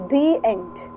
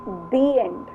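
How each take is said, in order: First: 'The' is said with a long 'thee' vowel. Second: The same.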